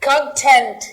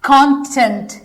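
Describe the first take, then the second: First: The stress is on the second syllable. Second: The stress is on the first syllable. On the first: It is used as a verb. "ये हो गया verb" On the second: It is used as a noun. "ये हो गया noun"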